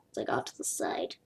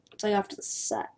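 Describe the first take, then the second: First: Whispered aside. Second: Said in the usual way. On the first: Real, not acted. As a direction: whisper it under the breath. Repeated under breath.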